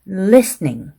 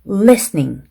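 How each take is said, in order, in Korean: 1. 모음을 짧게 발음합니다. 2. 모음을 짧게 발음합니다.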